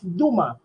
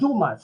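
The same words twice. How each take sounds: First: The final s sound is silent. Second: The final s sound is pronounced. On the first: The speaker calls it right. "It's Dumas. Silent S" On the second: The speaker calls it wrong. "we don't pronounce his family name Dumas"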